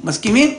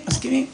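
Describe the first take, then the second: First: מסכימים rising as a question; asking tune. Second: מסכימים falling and softer as an answer; answering tune. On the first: Father asking the family to agree, rising question. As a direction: put it to the family, lift the end of מסכימים. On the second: Family answering father, soft falling agreement. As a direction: settle it, drop the end of מסכימים. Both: Retold or imitated.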